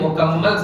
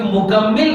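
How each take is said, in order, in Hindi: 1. आखिरी अक्षर में 'a' स्वर है। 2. आखिरी अक्षर में 'i' स्वर है। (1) "मुकम्मल सही उर्दू है" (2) "मुकम्मिल सही उर्दू नहीं है"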